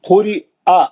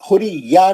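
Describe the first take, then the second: First: The final vowel follows a glottal stop, no y. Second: The final vowel follows a clear y sound. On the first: The speaker calls it right. "हमजा का जबर एक हरकत पढ़ना है" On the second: The speaker calls it wrong. "खुरी या नहीं"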